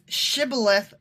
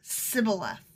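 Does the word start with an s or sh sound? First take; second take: sh; s. First: The word starts with an sh sound. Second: The word starts with a plain s sound. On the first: This is the correct pronunciation. The speaker calls it right. "So they couldn't say their SHs right" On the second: The speaker is from Ephraim. The speaker calls it wrong. "he would say Sibboleth"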